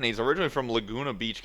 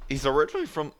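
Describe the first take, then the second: First: Said in the usual way. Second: Voice cracking. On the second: Real, not acted. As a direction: voice cracks on originally. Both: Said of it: "oh, voice crack again".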